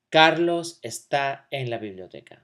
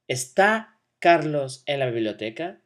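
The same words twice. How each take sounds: First: Falling statement intonation on "Carlos está en la biblioteca"; statement tune. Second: "¿Está Carlos en la biblioteca?" with rising question intonation; question tune. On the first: Teacher to class, modeling a plain statement with falling tune. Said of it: "That's a statement". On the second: Teacher to class, modeling a yes-no question with rising tune. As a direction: lift the end of "biblioteca" into a question. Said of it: "I change my inflection like this". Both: Shown as a demonstration.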